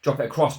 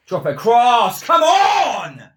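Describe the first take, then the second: First: Said in the usual way. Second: Much higher, much louder yelled plea; frantic shout. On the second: Real, not acted. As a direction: yell it at the screen as the chance builds. Urging player during attack.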